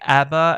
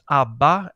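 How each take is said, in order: First: It is said with a British pronunciation. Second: It is said with a Swedish pronunciation. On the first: "as they say in Great Britain" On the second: "as we say in Sweden"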